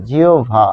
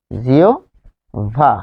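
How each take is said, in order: First: জিওভা run together as "jiobha", falling; joined pronunciation. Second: জিওভা very slowly, "jio" rising, pause, "bha"; drawn-out pronunciation. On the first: Teacher shows the word after explaining the stop, joined pronunciation. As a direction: say জিওভা in one go with bh. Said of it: "যেহেতু থেমে যাচ্ছি". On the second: Teacher repeats the spelled-out word for learners, drawn-out pronunciation. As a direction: split জিওভা into two long parts. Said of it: "তাহলে এটি কি হবে?". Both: Shown as a demonstration.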